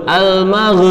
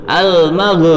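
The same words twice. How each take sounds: No difference in how they are said.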